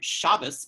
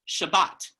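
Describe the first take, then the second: First: The word ends with an s sound. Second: The word ends with a t sound. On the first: This is the older traditional pronunciation. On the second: This is the modern Hebrew pronunciation.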